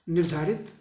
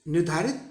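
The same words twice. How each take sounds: The two takes are said the same way.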